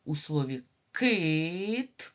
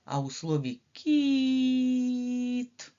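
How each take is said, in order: First: Кит stretched slowly, the vowel drawn out; teacher stretching the word кит; slow vowel stress. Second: Кіт drawn out very slowly, higher and louder; teacher drawing out кіт; slow high vowel stress. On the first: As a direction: linger on кит for the children. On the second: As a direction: stretch the і in кіт high and long. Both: Shown as a demonstration. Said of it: "А які голосні звуки?".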